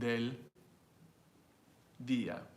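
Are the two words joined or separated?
separated. The two words are said apart with a break. The speaker calls it wrong. "No one's saying"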